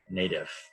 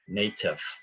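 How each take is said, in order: First: It is said in an American accent. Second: It is said in a British accent. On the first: "American English we say native" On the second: "British accent they tend to pronounce the T very clearly"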